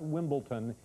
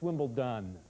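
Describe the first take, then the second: First: The last syllable begins with a t sound. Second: The last syllable begins with a d sound. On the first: The speaker calls it wrong. "It's not Wimbledon. ... say ton" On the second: The speaker calls it right. "It's D with a D"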